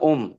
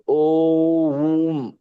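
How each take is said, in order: First: Om is said short and plainly. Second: Om is drawn out slowly through each sound. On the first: The speaker calls it wrong. "ऐसे कई लोग कहते हैं ओम, ऐसा नहीं नहीं बोलते।" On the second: The speaker calls it right. "ओम ऐसा बोलते हैं।"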